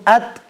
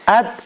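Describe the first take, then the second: Both takes have the same delivery.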